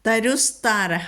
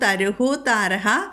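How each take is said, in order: First: The first word ends in an s sound. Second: The first word ends in an echoing h sound. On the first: "എന്ന് വരും" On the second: "അവിടെ വിസർഗമാണ്"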